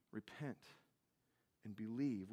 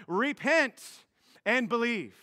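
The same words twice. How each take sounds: First: Much softer, lower, pressing the words home; quiet repeat. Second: Slow, louder, proclaiming the command; proclaimed command. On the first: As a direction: let the words sink in softly. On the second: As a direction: announce the command to the crowd. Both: Shown as a demonstration. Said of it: "his first commands".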